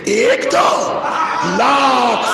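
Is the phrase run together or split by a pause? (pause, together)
pause. There is a pause after the first word. The speaker calls it right. "मुझसे सुनिए"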